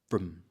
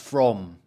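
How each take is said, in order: First: The vowel is a short schwa and clipped. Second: The vowel is full and the word is longer. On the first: "the weak form with schwa" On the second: "that's because you know the strong form"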